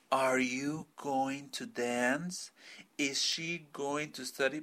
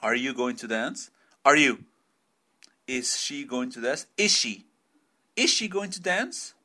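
First: "Are you going to dance?" said very slowly, each word separate; overly careful. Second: "Is she going to dance?" run together, "Is she" sounding like "ishi"; linked words. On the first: Teacher mocks the slow textbook way students expect, very slow. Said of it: "esperan que un gringo hable así". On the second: Teacher shows students the natural American linking, words blended. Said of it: "they link words". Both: Shown as a demonstration.

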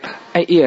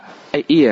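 First: Higher, louder mock insult; insulting a stranger. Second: Higher, louder joking jeer; teasing friend insult. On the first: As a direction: jeer at someone you barely know. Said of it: "คนนี้ไม่สนิทเลย". (ด่าคนไม่สนิทแบบแกล้งๆ) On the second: Retold or imitated. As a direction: rib a close friend. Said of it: "เมื่อก่อนเคยเรียกว่า". (เรียกเพื่อนสนิทแบบหยอกๆ)

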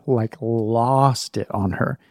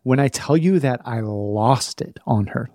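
First: Slow, leaning hard on "lost"; stress on lost. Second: Said in the usual way. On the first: Shown as a demonstration. Stressing to listeners how badly "lost" he got. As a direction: drag out "lost it on her" to drive it home.

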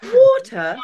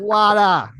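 First: "water" as high, loud "waw-tuh"; British "water". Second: "water" with open ah vowels, high and loud; American "water". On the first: Answering the American version, exaggerated British pronunciation. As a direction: pitch "water" way up with a rounded British aw. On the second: Comic quoting audience's American pronunciation, exaggerated. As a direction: hit "water" as an exaggerated American "wah-tah". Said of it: "say the American pronunciation". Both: Shown as a demonstration.

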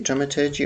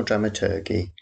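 First: "dramaturgy" with the g as a soft j, ending "-jee"; soft-g pronunciation. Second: "dramaturgy" with a hard g, ending like "turkey"; "dramaturgy" ending in "-ghee", not "-jee"; hard-g pronunciation. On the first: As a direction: say "dramaturgy" to end like "clergy". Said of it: "Is it dramaturgy or dramaturgy?". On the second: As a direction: say "dramaturgy" so the end rhymes with turkey. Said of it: "That sounds a bit like turkey". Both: Shown as a demonstration.

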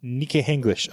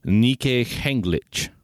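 First: Nike Henglich repeated carefully; repeating the name. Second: Nike Henglich said slowly, every syllable clear; correct pronunciation. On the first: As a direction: carefully copy Nike Henglich as you just heard it. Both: Shown as a demonstration. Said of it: "it's pronounced Nike Henglich".

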